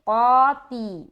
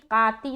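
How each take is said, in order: First: The first sound is heavy, with rounded lips. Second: The first sound is light, with unrounded lips. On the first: The speaker calls it right. "मुंह को गोल बनाते हुए" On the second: The speaker calls it wrong. "काती नहीं बोलना"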